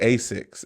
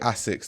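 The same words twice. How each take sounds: First: It is pronounced the common English way. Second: It is pronounced the Japanese way. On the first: The speaker calls it wrong. "They don't say Asics in Japan" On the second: The speaker calls it right. "Japanese people say Asics"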